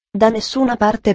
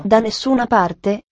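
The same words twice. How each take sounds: First: Said in the usual way. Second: Slow questioning echo of "Da nessuna parte"; incredulous echo question. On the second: A narrator's reading. Girl echoes answer in disbelief.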